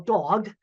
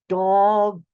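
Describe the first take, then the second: First: The word is said at normal speed. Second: The word is said slowly, each sound enunciated.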